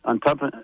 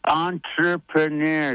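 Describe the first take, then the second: First: "entrepre-" broken off mid-word, the speaker stuck on it; stumbling on the word. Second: "Entrepreneur" spelled out syllable by syllable, very slow, ending "-nair"; slow careful pronunciation. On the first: Guest fumbling a hard word on air, stuck mid-word. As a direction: trip over "entrepre-" and stop short. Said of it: "My, my accent". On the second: Repeating the host's word back on air, very slow and careful. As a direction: sound out "Entrepreneur" carefully after the host's prompt. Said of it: "That's my, my damn accent". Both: Real, not acted.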